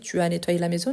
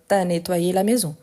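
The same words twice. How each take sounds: First: Tu and as are both said in full. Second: Tu as is run together into t'as. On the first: This is the standard grammatical form. "On peut dire" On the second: This is casual spoken French. "On parle vite"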